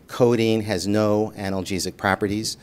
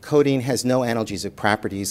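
First: It is said loudly and very slowly. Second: It is said at a normal pace.

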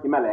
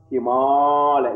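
First: The vowel after Him is short. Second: The vowel after Him is long. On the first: The speaker calls it wrong. "It's not Himalaya" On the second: The speaker calls it right. "A plus A become double"

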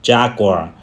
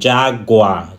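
No difference in how they are said.

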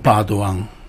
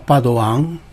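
First: The stress falls on the first syllable. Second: The stress falls on the last syllable. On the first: The speaker calls it wrong. "e non Padoan" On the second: The speaker calls it right. "ma Padoan, come insegnano altri cognomi simili"

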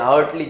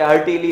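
First: The word is said with two syllables. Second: The word is said with three syllables. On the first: The speaker calls it right. "એને હાર્ટલી જ બોલાશે" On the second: The speaker calls it wrong. "હાર્ટીલી નહીં"

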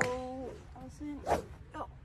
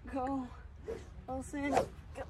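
First: Allison comes too early, rushed. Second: Allison comes too late, delayed.

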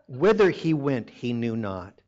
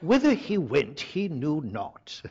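First: It is read in the speaker's normal American accent. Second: It is read in a put-on British accent. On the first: "I don't think I can do it through the whole thing" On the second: "I should read this with a British accent"

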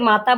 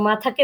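First: The middle t sound is unaspirated. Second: The middle t sound is aspirated. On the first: The speaker calls it wrong. "মাতা বলেছো" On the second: The speaker calls it right. "মাথাকে মাতা বলেছো"

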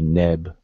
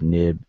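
First: The middle vowel is a short e. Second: The middle vowel is a short i. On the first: The speaker calls it right. "this particular word will be neb" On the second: The speaker calls it wrong. "and not noob, nib"

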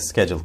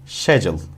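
First: It is said in an American pronunciation. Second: It is said in a British pronunciation. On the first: "Genelde schedule kullanılır ve daha baskındır" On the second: "British olanlar, İngilizce daha yakın olanlar schedule şeklinde söylüyorlar"

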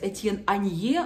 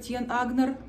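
First: The surname has no g sound. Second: The surname has a hard g sound. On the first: This is the form the speaker instinctively wants to use. "все время просится сказать" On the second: This is how people commonly say it. "как говорят Агнер, также буду придерживаться"

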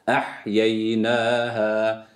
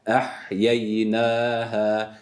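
The two takes are said the same way.

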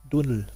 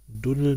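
First: The word begins with a T sound. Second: The word begins with a D sound.

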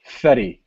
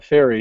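First: The middle consonant is a t sound. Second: The middle consonant is an r sound. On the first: The speaker calls it right. "He pronounces it Fetty" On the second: The speaker calls it wrong. "he also doesn't pronounce it Ferry"

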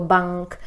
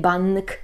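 First: The n is made at the back of the mouth. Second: The n is made with the tongue on the teeth. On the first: The speaker calls it right. "tylko bank" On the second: The speaker calls it wrong. "nie bank"

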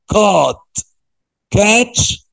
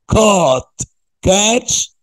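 Both takes have the same delivery.

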